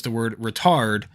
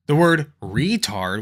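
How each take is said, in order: First: Said in the usual way. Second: "retard" with a long, stressed REE; slow down and hit the first syllable of "retard". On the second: Shown as a demonstration. Explaining the negative word, "retard" stressed on its first syllable. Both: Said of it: "when you emphasize the first syllable".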